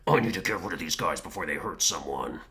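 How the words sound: It is said in a gruff, growly voice. The character is angry and corrupted. "he would like do this like Batman voice almost"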